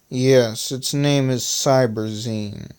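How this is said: It is said in Glockenstick's slow southern voice.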